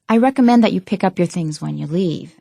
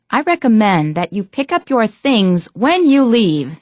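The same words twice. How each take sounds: First: The tone is mild and relaxed. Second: The tone is strong and stern.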